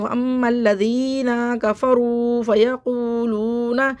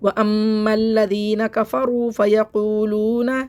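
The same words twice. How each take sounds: First: The long vowels are stretched out very long. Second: The long vowels are held only briefly. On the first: The speaker calls it wrong. "बहुत से लोग बहुत ज़्यादा ज़्यादा खींचा... इस तरह खिंचवाते हैं, लेकिन इस तरह नहीं पढ़ना है" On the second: The speaker calls it right. "बस इतना खींचना है, इससे ज़्यादा नहीं खींचना है"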